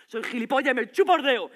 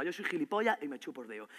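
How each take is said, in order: First: Higher, much louder repeat; shouted sarcasm. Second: Lower, contained annoyance; restrained sarcasm. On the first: Boyfriend accuses her over a call, shouted sarcasm. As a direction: explode with sarcastic anger. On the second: Boyfriend accuses her over a call, restrained sarcasm. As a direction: say it bitterly without raising your voice. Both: Acted.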